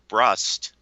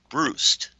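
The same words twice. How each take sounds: First: The name is said with an American pronunciation. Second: The name is said with a Hungarian pronunciation. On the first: "The American pronunciation is" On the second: "the Hungarian pronunciation is"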